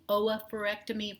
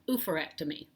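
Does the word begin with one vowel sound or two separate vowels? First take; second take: two vowels; one vowel. First: The start is two separate 'oh' vowels. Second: The start is one long 'oo' vowel. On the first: The speaker calls it right. "the double O's technically should be" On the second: The speaker calls it wrong. "you hear people say all the time"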